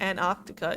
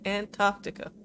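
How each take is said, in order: First: A T sound in the word is dropped. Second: Every T sound in the word is pronounced. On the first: The speaker calls it wrong. "It's not Antarctica" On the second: The speaker calls it right. "you can pronounce the T's"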